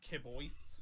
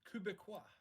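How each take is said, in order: First: The word gets a shortened, misread pronunciation. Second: The word gets its standard French-Canadian pronunciation. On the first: The speaker calls it wrong. "I called them like Kibois or something like that" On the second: The speaker calls it right.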